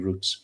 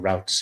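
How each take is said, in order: First: It is said in a British accent. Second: It is said in an American accent.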